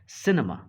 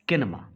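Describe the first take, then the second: First: The word begins with an s sound. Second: The word begins with a k sound. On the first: The speaker calls it right. "This is सिनेमा" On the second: The speaker calls it wrong. "Not किनेमा"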